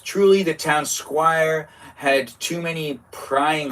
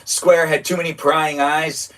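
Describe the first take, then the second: First: "squire" said as /skwaɪə˞/, the misread word; "town squire" misreading "squire" like a knight's attendant. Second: "Square" said /skwɛɹ/, rhyming with air; "Square" fixed after the misreading; square corrected. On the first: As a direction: read "squire" rhyming with fire. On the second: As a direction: read "Square" like town square. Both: Real, not acted. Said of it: "It's not squire".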